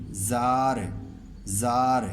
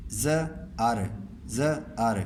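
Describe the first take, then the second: First: زار said as one smooth syllable, alif joined to ز; correct joined reading. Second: ز and ار said as two separate sounds, the alif not joined to ز; wrong split reading. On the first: Teacher showing students the correct joined reading. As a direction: blend ز straight into ار in one syllable. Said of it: "زے کے ساتھ ملا کے پڑھیں گے". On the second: Teacher showing students the wrong split reading. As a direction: break ز off from ار with a gap. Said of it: "یہ غلط ہو جائے گا". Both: Shown as a demonstration.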